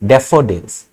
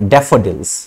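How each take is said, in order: First: The f sound is short and light. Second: The f sound is long and strong. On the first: The speaker calls it wrong. "Normally अगर single एफ होता है तो डेफोडिल्स" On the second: The speaker calls it right. "फ का जोड़ जो है वो बढ़ जाता है"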